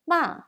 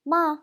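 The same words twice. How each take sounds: First: "Ma" falling sharply from high, Standard Mandarin fourth tone. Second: "Ma" in the Tianjin fourth tone, high and a little louder. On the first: Teacher demos Standard Chinese fourth tone, falling "Ma". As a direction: drop "Ma" hard from the top. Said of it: "Fourth tone in Standard Chinese". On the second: Teacher contrasts Tianjin fourth tone with Standard "Ma". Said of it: "Fourth tone in Tianjin dialect". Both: Shown as a demonstration.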